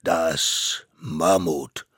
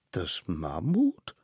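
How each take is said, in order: First: MAMMUT very slow and loud, falling at the end; grand announcement. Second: MAMMUT drawn out, rising at the end; disbelieving question. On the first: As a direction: judge solemnly announcing MAMMUT. Court names its witness. („Mammut“ langsam, laut, feierlich verkündet) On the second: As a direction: echo MAMMUT as a doubtful question. Children question the named witness. („Mammut“ ungläubig fragend, nach oben gezogen) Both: Acted.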